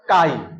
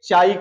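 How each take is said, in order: First: The word begins with a k sound. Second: The word begins with a ch sound. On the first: The speaker calls it right. "जो यच को silent कह देते हैं तो क्या पढ़ा जाएगा?" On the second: The speaker calls it wrong. "जो सी एच को च लेकर पढ़ते हैं तो उसको एक चाई कह देते हैं"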